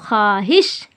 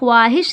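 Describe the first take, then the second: First: The w sound is only faintly heard. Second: The w sound is pronounced fully and clearly. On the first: The speaker calls it right. "खा और वाव के हल्की सी आवाज़ आएगी" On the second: The speaker calls it wrong. "इसको ख्वाहिश नहीं पढ़ा जाएगा"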